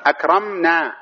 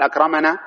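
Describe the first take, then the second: First: "أكرمنا" higher, akram-naa with no vowel after the m; correct still consonant. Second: "أكرمنا" said akrama-naa, with an a after the m; wrong extra vowel. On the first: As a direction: hold the closed m in "أكرمنا", then naa. ("أكرمنا" بتسكين الميم) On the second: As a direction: open the m of "أكرمنا" into ma before naa. ("أكرمنا" بفتح الميم) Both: Shown as a demonstration. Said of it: "ولا تقول".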